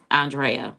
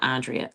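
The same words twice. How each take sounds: First: "Andrea" said ahn-DRAY-uh; correct name pronunciation. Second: "Andrea" said AHN-dree-uh; mistaken name pronunciation. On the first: Correcting a listener's name, "Andrea" as ahn-DRAY-uh. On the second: Showing the mistaken name, "Andrea" as AHN-dree-uh. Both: Shown as a demonstration. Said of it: "not Andrea".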